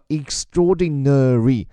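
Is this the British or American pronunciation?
American. It is said in an American accent, every syllable.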